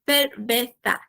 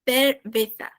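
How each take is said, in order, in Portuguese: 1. O z é som de s, com a língua atrás dos dentes. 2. O z é som de th, com a língua entre os dentes. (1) "a língua ela tem que estar atrás dos dentes superiores" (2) "em espanhol é cerveza"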